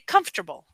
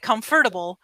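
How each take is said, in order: First: The word is said with three syllables. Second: The word is said with four syllables. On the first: This is how native speakers say it. "we say comfortable. Instead of saying four syllables, we say three syllables" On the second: This is how it looks when read from the spelling. "people say comfortable"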